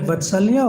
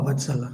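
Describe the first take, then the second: First: Vatsalya with a "lya" ending; checking pronunciation. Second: Vatsala with a plain "la" ending; checking pronunciation. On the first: Teacher asking the devotee about her name, Vatsalya with "lya". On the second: Teacher asking the devotee about her name, Vatsala with plain "la". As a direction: say Vatsala, no y-glide before the last a. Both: Shown as a demonstration. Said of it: "I'm pronouncing right".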